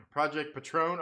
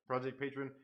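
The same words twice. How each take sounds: First: "Patron" said as pa-TRONE, stress on the last syllable; Spanish brand pronunciation. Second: "Patron" said as PAY-trun, stress on the first syllable; mispronounced brand. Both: Shown as a demonstration. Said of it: "Oh, it's Patron".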